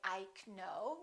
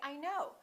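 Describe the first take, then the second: First: The K sound is pronounced. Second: The K sound is silent. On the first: The speaker calls it wrong. "We don't say I know" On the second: The speaker calls it right. "we say I know"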